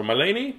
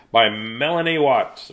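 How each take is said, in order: First: Melanie said meh-LAY-nee, rising. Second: Said in the usual way. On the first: Shown as a demonstration. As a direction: try Melanie with a long "ay" in the middle, "məleɪni". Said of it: "I don't know". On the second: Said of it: "Or Melanie?".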